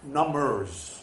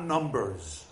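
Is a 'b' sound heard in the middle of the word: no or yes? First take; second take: no; yes. First: No 'b' sound is heard after the 'm'. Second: A 'b' sound is heard after the 'm'. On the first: Things that make you numb. "With a B. ... A silent B" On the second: Counting figures. "Not numbers"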